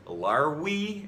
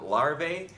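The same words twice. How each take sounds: First: The middle consonant sounds like a w. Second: The middle consonant sounds like a v. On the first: "It was pronounced more like a W" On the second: "instead of larvae"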